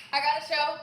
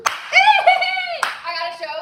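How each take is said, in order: First: Said in the usual way. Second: Very high, loud and slow with a laugh; excited shout. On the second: Real, not acted. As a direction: shout the news in pure joy. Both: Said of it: "Sorry, I'm excited".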